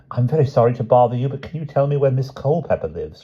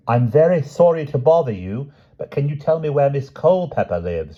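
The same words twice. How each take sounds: First: Said in the usual way. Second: Each word spelled out for a deaf listener; carefully enunciated, loud and clear; slow and clear. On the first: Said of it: "she said". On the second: A narrator's reading. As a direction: say it slowly and clearly to a deaf man. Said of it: "she said slowly and clearly".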